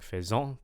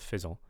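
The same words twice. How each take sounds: First: One syllable gets extra loudness and pitch. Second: Both syllables are even in loudness and pitch. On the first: The speaker calls it wrong. "I'm kind of hearing faisant" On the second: The speaker calls it right. "but I want faisant"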